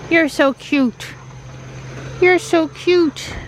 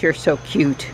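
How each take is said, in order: First: Pet talk. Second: Said in the usual way. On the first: Real, not acted. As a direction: coo it to the cat. Cooing at cat.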